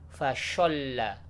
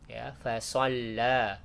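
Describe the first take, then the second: First: Fasholla with sh instead of s; wrong sh sound. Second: Fasalla with a thick, emphatic sad; correct heavy s. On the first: Teacher demonstrates the wrong reading Fasholla with sh. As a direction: say Fasholla slowly, sliding into shin. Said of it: "bukan fasholla". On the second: Teacher models the right fasalla with a thick sad. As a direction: say fasalla slowly, heavy s not sh. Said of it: "Bukan ya, tapi fasalla". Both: Shown as a demonstration.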